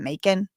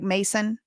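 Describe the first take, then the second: First: The middle consonant is a K sound. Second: The middle consonant is an S sound. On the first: Some places switched to this pronunciation. "started pronouncing it Macon" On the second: This is the technically correct local pronunciation. "the way to pronounce this technically is Mason"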